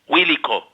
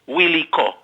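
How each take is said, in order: No difference in how they are said.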